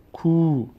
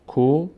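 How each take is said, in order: First: Higher, long "کو" as koo; long vowel. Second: "کو" as a short ko; brief o in "کو"; short vowel. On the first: Teacher repeating the contrast, long "کو" as koo. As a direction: stretch the oo in "کو". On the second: Teacher repeating the contrast, short "کو" as ko. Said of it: "فرق بین ضمه و صدای کشیدهٔ". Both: Shown as a demonstration.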